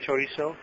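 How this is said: The z sounds like an s.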